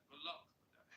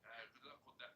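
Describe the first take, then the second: First: Second, brighter try at the London accent, rising at the end; a more confident London accent; mimicking her accent. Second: Soft try at her London accent; quietly trying out the London accent; mimicking her accent. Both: Shown as a demonstration. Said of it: "I'd have to hit your tone".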